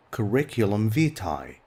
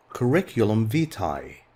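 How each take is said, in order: Both takes have the same delivery.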